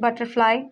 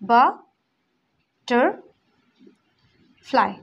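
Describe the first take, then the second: First: The word is said smoothly without breaks. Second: The word is split with pauses between syllables.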